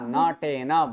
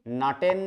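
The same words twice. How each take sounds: First: The final n is fully voiced with its vowel. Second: The final n is clipped without a vowel. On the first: The speaker calls it right. "न पूरा" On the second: The speaker calls it wrong. "नटेन नहीं बोलना है"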